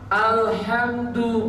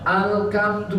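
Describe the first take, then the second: First: The middle consonant is a breathy h sound. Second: The middle consonant is a hard k sound. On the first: This is how it should be read. The speaker calls it right. "disuruh membaca ha alhamdu" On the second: A Javanese speaker struggles with the sound. The speaker calls it wrong. "baca alkamdu, ah, itu susah"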